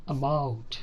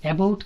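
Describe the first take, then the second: First: About opening on a short "uh"; clipped schwa. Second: About opening on a full "ae"; don't reduce the first vowel of About. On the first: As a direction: say about as "uh-BOUT". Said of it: "స్టార్టింగ్లోనే cut చేసేస్తాము". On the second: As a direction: say About as "ae-bout". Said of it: "కాదు". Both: Shown as a demonstration.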